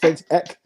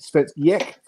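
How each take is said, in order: First: Ek starts with a plain vowel, flat ending. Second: Ek starts with a Y sound, inflected ending. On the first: The speaker calls it wrong. "it looks like it's Svensk Ek" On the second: The speaker calls it right. "put a Y in front of it and a bit of inflection in the end"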